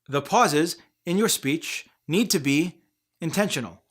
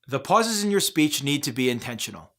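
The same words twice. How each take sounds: First: Pauses break up the sentence every few words. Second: The sentence runs through with no pauses. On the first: "Speech voices often pause way too much, like this" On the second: "saying the same sentence without any pauses"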